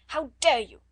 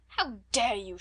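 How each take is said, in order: First: Much louder, higher, shouted "How dare you"; furious shout. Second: Firm, indignant "How dare you"; scold, held in. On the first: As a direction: let the anger explode. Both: A narrator's reading. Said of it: "she cried out".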